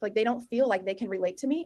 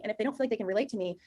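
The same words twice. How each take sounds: First: First take lifting to a rising end. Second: Quick take that settles down at the end; falling, quicker second take. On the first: Coach to sales reps, first take ending on a rise. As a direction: ask it half as a question, rising at the end. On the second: Coach to sales reps, second take falling and quicker. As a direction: drive it home, falling and a bit faster. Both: Shown as a demonstration. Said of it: "repeats line for emphasis".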